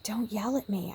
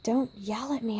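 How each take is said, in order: First: Whispered, weight on "at" and falling at the end; hushed "Don't yell at me" leaning on "at"; stress on at. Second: Whispered, "Don't" hit hardest and the end falling; hushed plea leaning on "Don't"; stress on don't. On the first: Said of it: "I'm just like". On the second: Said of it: "I said". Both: Retold or imitated.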